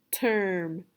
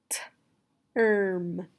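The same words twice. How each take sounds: First: Said in the usual way. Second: TERM split into a crisp "t", then held "erm"; sounding out. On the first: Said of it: "you will say the whole word". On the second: Shown as a demonstration. Teacher leading the student through term, sounding out. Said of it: "Say the sounds with me".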